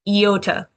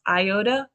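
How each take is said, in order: First: The first vowel is an 'ee' sound. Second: The first vowel is not an 'ee' sound. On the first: This helps recall that the letter makes an E sound. "I'm going to say it differently" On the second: This is the common way people say it. "you always hear it pronounced iota"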